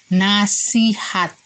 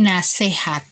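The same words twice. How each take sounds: First: The middle vowel is an i sound. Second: The middle vowel is an e sound. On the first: The speaker calls it right. "Kata bakunya nasihat" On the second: The speaker calls it wrong. "Itu adalah kata tidak baku. ... E-nya itu diganti dengan I"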